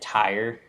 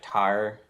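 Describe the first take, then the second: First: The word has the standard full vowel sound. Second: The word sounds flattened, almost like 'tar'. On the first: "instead of saying tire" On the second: "they'll be like tire"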